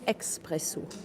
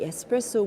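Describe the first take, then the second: First: The word begins with an 'ex' sound. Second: The word begins with a plain 'ess' sound. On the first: This is the form used in France. "we say expresso" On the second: This is not the form used in France. "we don't say espresso"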